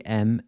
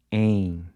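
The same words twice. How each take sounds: First: "M" said as "em" with lips shut at the end; English-style M. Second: "em" as nasal "ain", lips never touching; Portuguese nasal EM. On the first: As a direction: close the lips firmly on "M". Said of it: "where your lips touch at the end". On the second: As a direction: say "em" almost like "eing", no M closure. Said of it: "Your lips never touch". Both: Shown as a demonstration.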